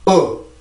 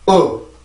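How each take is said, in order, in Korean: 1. 이 모음은 이완되어 있고, 입술을 벌립니다. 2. 이 모음은 이완되어 있고, 입술을 벌립니다.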